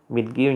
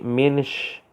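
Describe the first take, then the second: First: The word ends with a 'ki' sound. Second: The word ends with a 'sh' sound. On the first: This is the standard form.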